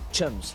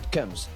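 First: The word begins with a ch sound. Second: The word begins with a k sound. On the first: The speaker calls it right. "You must pronounce the H" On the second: The speaker calls it wrong. "not cums"

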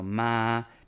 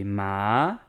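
First: The pitch stays level and high. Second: The pitch rises from lower to higher. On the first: "because it's up high, the tone and stays up high" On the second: "Then the second tone goes up, so that would be"

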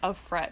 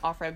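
First: It is said as two separate words. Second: It is said as a single word. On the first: She belongs to Fred. The speaker calls it right. "I feel like it's just of Fred" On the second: It is just a name. The speaker calls it wrong. "I was pronouncing it Offred"

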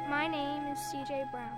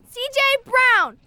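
First: It is said quietly. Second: It is said loudly, almost yelled.

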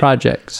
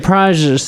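First: The word is said clearly and carefully enunciated. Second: The word is said carelessly and slurred. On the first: The speaker calls it right. "you enunciate better" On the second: The speaker calls it wrong. "You don't say projects though"

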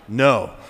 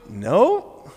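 First: It is said in a flat, monotone voice. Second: It is said in a lively, expressive voice. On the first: The speaker calls it wrong. "this is just the sort of the monotone, auto-tune voice that we have" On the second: The speaker calls it right. "This is what I heard"

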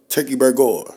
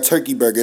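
First: Burger ends with an 'or' sound. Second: Burger ends with a plain 'er' sound. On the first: It is a fancier, upgraded turkey burger. "The O-R is instead of E-R" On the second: It is an ordinary turkey burger. "it's no longer a turkey burger"

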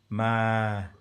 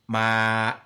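First: The voice is smooth and glides off. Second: The voice is cut off abruptly. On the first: "I've got normal voice" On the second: "stiff voice, ma, my voice cuts it"

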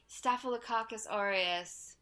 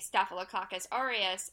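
First: It is said in a wistful, reminiscing way. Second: It is said in a plain, matter-of-fact way. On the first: The name brings back fond old memories. "It's very wistful" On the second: It is simply a diagnosis being reported. "they say Staphylococcus aureus"

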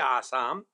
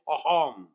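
First: The middle consonant is an s sound. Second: The middle consonant is an h sound.

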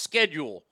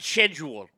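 First: It is said with the American pronunciation. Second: It is said with the British pronunciation. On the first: The speaker calls it right. "when it's clearly pronounced schedule" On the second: The speaker calls it wrong. "not schedule"

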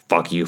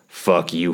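First: It is said very fast. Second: It is said at normal speed.

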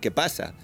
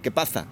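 First: The s sound is a plain s. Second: The s sound is lisped, like th. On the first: "instead of saying qué pasa" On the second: "they have a very thick accent"

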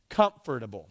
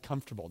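First: The word is said with an extra syllable. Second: The word is said with one syllable fewer. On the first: "That's how you say it. There's an extra syllable that you guys add" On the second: "I'm from the South, so I just say comfortable"

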